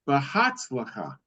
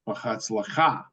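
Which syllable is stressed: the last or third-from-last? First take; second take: third-from-last; last. First: The stress falls on the third-from-last syllable. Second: The stress falls on the last syllable. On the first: "English is anti-penultimate, so it would be"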